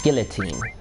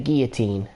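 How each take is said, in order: First: The double L sounds like an L. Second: The double L sounds like a Y. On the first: The speaker calls it right. "supposed to be pronounced with the double L sound. With guillotine" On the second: The speaker calls it wrong. "why do Americans pronounce guillotine with a Mexican double L? Why is it a guillotine?"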